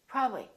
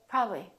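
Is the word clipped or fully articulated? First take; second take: clipped; clipped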